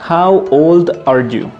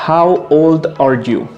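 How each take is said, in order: No difference in how they are said.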